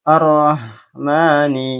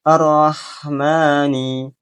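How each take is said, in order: No difference in how they are said.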